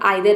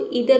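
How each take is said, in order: First: The first vowel sounds like 'eye'. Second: The first vowel sounds like 'ee'. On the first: "और आइदर भी पढ़ते हैं, दोनों तरीके से सही है" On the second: "इसको इधर भी पढ़ते हैं"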